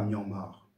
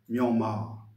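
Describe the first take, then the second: First: The word ends with a pronounced r sound. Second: The final vowel is long with no r sound. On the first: The speaker calls it wrong. "et non pas" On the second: The speaker calls it right. "simplement pour marquer la longueur du, de la voyelle A"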